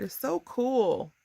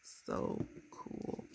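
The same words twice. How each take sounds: First: Drawn-out, higher-pitched delight; real excitement, slow and lifted; delighted gushing. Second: Soft, breath-only whisper; hushed, whispered gushing; awed whisper. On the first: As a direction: stretch it out, thrilled. Gushing over her card. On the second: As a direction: whisper it in delight. Repeats her delight in a whisper. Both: Real, not acted.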